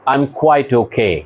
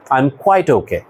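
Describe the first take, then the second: First: I'm quite okay said very slowly with quite stressed; teacher modelling a reply slowly; slow model sentence. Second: Said in the usual way. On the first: Shown as a demonstration. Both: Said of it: "তুমি বললা".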